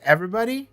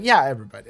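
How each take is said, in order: First: "Everybody?" rising high to the end; questioning EVERYBODY. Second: "Yeah, everybody" falling at the end; confirming EVERYBODY. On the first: New recruit checking who deserves vengeance, questioning "Everybody?" with rising pitch. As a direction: ask "Everybody?" with a steep upward lift. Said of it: "And then she's like". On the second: Recruiter answering the new demon, confirming "Yeah, everybody" with a falling tune. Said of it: "And then he's like". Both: Retold or imitated.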